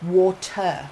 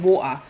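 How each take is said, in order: First: "Water" with a crisp, sounded T; mum's correction, "Water" with the T pronounced; correcting mum. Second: "water" with the T dropped; "water" as wo'-uh. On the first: Retold or imitated. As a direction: say "Water" carefully as wor-tuh. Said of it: "she would be like". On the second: Shown as a demonstration. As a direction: say "water" East End style, glottal stop for the T. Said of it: "my mum would correct me".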